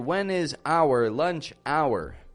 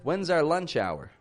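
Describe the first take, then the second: First: 'When is' is said as two full words. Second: 'When is' is shortened to one syllable. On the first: The speaker calls it wrong. "We don't want to say" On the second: The speaker calls it right. "But rather"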